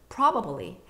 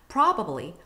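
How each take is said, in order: The two takes are said the same way.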